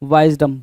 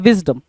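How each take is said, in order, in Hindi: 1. पहला स्वर लंबी 'eye' ध्वनि है। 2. पहला स्वर छोटी 'i' ध्वनि है। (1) "यहाँ पे वाइजडम बोल रहा है" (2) "बोलना तो ये चाह रहा था विजडम"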